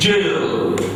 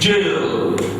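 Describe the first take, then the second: First: The word sounds like 'jail'. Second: The same.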